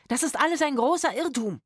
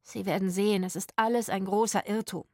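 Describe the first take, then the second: First: High, urgent protest; alarmed shouted plea. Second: Mildly relieved reassurance. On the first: Trapped actor pleading with the armed strangers, alarmed shout. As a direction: call it out in alarm. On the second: Actor inside reassuring the visitors, relieved. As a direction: explain it with the alarm gone. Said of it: "tönte es erleichtert". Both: A narrator's reading.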